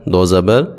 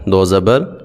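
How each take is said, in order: Both takes have the same delivery.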